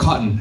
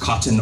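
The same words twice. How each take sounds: First: The t is a glottal stop. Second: The t is fully released. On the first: The speaker calls it right. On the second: The speaker calls it wrong. "Nobody says cotton or button"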